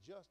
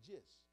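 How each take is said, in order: First: The word has a standard, general pronunciation. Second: The word has a regional, home-dialect pronunciation. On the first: The speaker calls it right. "Instead of saying just" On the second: The speaker calls it wrong. "I said just"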